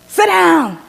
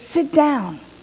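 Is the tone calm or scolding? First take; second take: scolding; calm. First: It is said sternly, like a scolding command. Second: It is said plainly and calmly. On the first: It is a scolding order. "with the wagging finger" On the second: It is a simple invitation. "Or simply"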